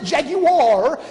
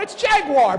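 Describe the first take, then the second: First: The word is said in a posh, refined way. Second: The word is said in an everyday way. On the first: "they pronounce it Jaguar because that's a luxury brand"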